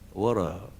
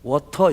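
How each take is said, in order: First: The middle t is softened into a flap. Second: The middle t is pronounced crisp and hard. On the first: The speaker calls it right. "이 T가 있으면 연음이 됩니다" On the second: The speaker calls it wrong. "water 이렇게 하면 안 돼요"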